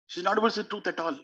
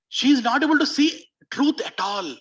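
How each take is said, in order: First: "She's not able to see truth at all" said fast and softer, stress on "able"; a hushed, rapid afterthought; quick quieter repeat. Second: "She is not able to see truth at all" declared high and loud, stress on "is"; a preacher's emphatic outcry. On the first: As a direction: drop the volume and rush the echo. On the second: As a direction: proclaim it with force, leaning on "is". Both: Shown as a demonstration.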